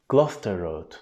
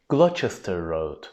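First: It is said the way locals say it. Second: It is said the way Americans say it. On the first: The speaker calls it right. "Ama Gloucester Road değilmiş" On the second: The speaker calls it wrong. "Özellikle Amerikalılar bu telaffuz şeklini yapıyor"

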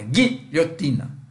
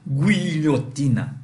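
First: The u after the g is silent. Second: The u after the g is pronounced. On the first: It is the usual way to say it. The speaker calls it right. "Não, é guilhotina" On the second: It is read exactly as spelled. The speaker calls it wrong. "se eu fosse ler isso aqui, eu liria assim"

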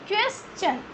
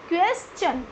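No difference in how they are said.

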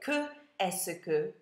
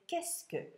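First: The vowel of que is kept before est. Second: The vowel of que is dropped before est. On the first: The speaker calls it wrong. "I don't say que est-ce que tu achètes au magasin" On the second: The speaker calls it right. "I say qu'est-ce que"

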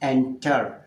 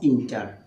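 First: The first vowel is an 'eh' sound. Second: The first vowel is an 'ih' sound. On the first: The speaker calls it right. "হবে এন্টার" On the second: The speaker calls it wrong. "Not ইন্টার"

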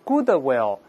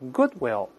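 First: The middle d is audibly released before will. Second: The middle d is held briefly without release. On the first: The speaker calls it wrong. "不要读goodwill，goodwill 不对" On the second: The speaker calls it right. "舌尖顶住上牙膛，憋住气，停顿一下，再发这个will"

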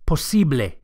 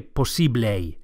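First: The final vowel is a steady pure 'e'. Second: The final vowel glides like an English 'ay'. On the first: The speaker calls it right. "is a pure vowel, not A" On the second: The speaker calls it wrong. "Don't say posible"

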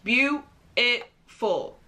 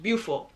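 First: The word is said with three full syllables. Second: The word is squeezed into two syllables. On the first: "British people will say beautiful. Three syllables" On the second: "[name] and [name] just say beautiful. Two syllables"

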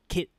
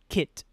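First: The final T is stopped without releasing air. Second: The final T is released with air. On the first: "But we don't let the air out" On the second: "English K-I-T"

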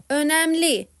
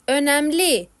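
The two takes are said the same way.

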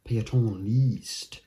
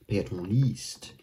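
Both takes have the same delivery.

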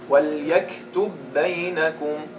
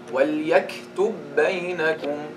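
Both takes have the same delivery.

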